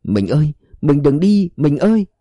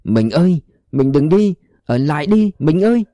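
First: Stunned cry. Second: Mild cry rising higher to the last ơi; a man crying out for his fading wife. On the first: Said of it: "trong lời ông thảng thốt". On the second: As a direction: call after a vanishing wife. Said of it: "gào lên". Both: A narrator's reading.

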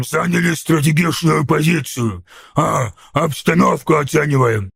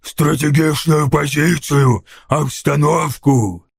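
First: Hesitant ork making an excuse; put-on ork voice, faltering a little; timidly daring to speak up. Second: Slow, drawn-out scornful ork echo; dragged-out ork contempt; hissed. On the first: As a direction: offer a lame excuse in an ork voice. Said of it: "отважился высказаться храбрец". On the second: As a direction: throw the words back slowly as a sneering ork. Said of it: "прошипел Сниггоп". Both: A narrator's reading.

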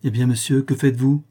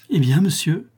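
First: Said in the usual way. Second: High, rising, alarmed question; startled fear as she finds him blocking the door; Mélite, alarmed, confronting Trémicourt at the door; frightened. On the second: A narrator's reading. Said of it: "lui dit-elle avec effroi".

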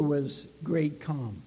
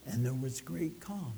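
First: Softer repeat. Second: Much softer and lower; hushed. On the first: Repeated for emphasis. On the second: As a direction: let it fall into a quiet calm. Sermon climax, calm. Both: Acted.

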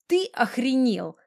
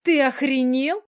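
First: Slow, higher-pitched indignant grumble; grumbling. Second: High, loud outraged shriek; indignant squeal. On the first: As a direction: drag it out crossly, without squealing. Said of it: "заворчала". (медленно, ворчливо) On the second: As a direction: squeal it in shock, pitch shooting up. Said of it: "взвизгнула она и". (возмущённый визг) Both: A narrator's reading.

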